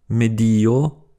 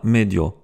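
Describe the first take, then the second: First: "medio" slowly, with i and o as two syllables; "medio" drawn out, stress on the i; separate syllables. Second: "medio" with i and o run together; "medio" with a y-glide before the o; wrongly merged syllables. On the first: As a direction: split "medio" into me-di-o. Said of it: "deux syllabes différentes comme dans environnement". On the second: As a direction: say "medio" in two syllables, me-dyo. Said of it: "et pas medio". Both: Shown as a demonstration.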